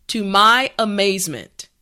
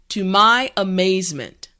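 No difference in how they are said.

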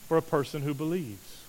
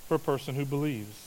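Both takes have the same delivery.

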